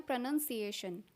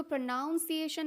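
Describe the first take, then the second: First: "प्रोनंसिएशन" said pruh-nun-si-AY-shun; "nun" in the middle of "प्रोनंसिएशन"; correct pronunciation. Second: "प्रोनाउंसिएशन" said pruh-NOWN-si-ay-shun; "noun" in the middle of "प्रोनाउंसिएशन"; wrong pronunciation. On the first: Teacher corrects learners, "प्रोनंसिएशन" with "nun" inside. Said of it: "इसको बोलते हैं प्रोनंसिएशन". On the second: Teacher shows learners the error, "प्रोनाउंसिएशन" with "noun" inside. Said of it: "इसको प्रोनाउंसिएशन नहीं बोलते हैं". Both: Shown as a demonstration.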